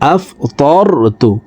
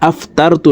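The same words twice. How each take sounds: First: The middle t sound is heavy and thick. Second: The middle t sound is light and thin. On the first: The speaker calls it right. "তকে মোটা করে উচ্চারণ করতে হবে" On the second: The speaker calls it wrong. "এখানে আফতারতু লেখা"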